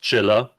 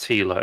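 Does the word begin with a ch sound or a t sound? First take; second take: ch; t. First: The word begins with a ch sound. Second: The word begins with a t sound. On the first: The speaker calls it right. "It's pronounced Chilla" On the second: The speaker calls it wrong. "It's not pronounced Tila"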